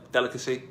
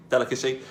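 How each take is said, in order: Both takes have the same delivery.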